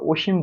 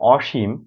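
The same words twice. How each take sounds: First: The first vowel is a closed o sound. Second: The first vowel is an open aw sound. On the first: It is a person's name. "যখন ব্যক্তির নাম হবে তখন সেখানে আমরা অসীম বলতে পারবো" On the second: It means limitless. "সীমার বিপরীত অসীম সেখানে অ বিবৃত উচ্চারণ হবে"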